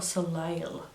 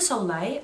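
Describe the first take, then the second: First: Soleil said with an audible L at the end; alternative pronunciation. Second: Soleil said as so-LAY; her own pronunciation. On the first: Beauty vlogger trying the other version, Soleil with final L. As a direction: close Soleil on an L, so-LAY-ul. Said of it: "This is the issue with the languages". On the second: Beauty vlogger questioning her own French, Soleil as so-LAY. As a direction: say Soleil ending in an open "lay". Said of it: "I'm saying Chanel Soleil". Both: Shown as a demonstration.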